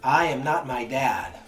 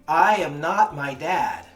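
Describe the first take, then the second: First: It is said louder than normal speech. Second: It is yelled at full volume.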